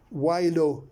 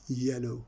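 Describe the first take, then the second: First: It begins with the letter name 'why'. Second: It begins with a plain 'y' sound. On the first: The speaker calls it wrong. "we do not pronounce yellow as" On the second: The speaker calls it right. "No, we say yellow"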